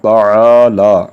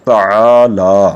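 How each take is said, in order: First: It is said with the throat 'ain' sound. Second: The same.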